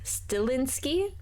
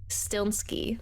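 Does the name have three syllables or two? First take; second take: three; two. First: A vowel sound comes between the L and N. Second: The L runs straight into the N. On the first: The speaker calls it wrong. "I've seen a lot of people say Stilinski" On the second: The speaker calls it right. "but it's Stilnsky. There's no I after the L"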